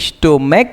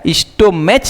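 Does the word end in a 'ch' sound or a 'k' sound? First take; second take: k sound; ch sound. First: The word ends with a 'k' sound. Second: The word ends with a 'ch' sound. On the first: The speaker calls it right. "स्टोमैक है। स्टोमैक में ये जो C H है इसका उच्चारण क है" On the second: The speaker calls it wrong. "स्टोमैच नहीं"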